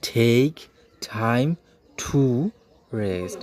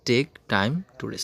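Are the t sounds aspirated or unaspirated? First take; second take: aspirated; unaspirated. First: The t sounds are aspirated. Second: The t sounds are unaspirated. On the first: The speaker calls it right. "টিকে আমরা ঠি বলি" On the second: The speaker calls it wrong. "আসলে বাক্যটা আমরা যেভাবে বলি, মূল ইংলিশ ... এভাবে বলে না"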